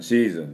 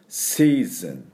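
First: The s sound is made back in the throat. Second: The s sound hisses through the front teeth. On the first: The speaker calls it wrong. "喉でシーズンシーズンじゃなくて" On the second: The speaker calls it right. "前歯の音を出してください"

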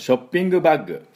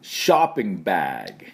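First: It is said with Japanese katakana pronunciation. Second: It is said with American English pronunciation. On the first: The speaker calls it wrong. "これ使うでしょ普段ね。でもこの発音じゃいけません。" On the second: The speaker calls it right. "どんな発音になるかというと"

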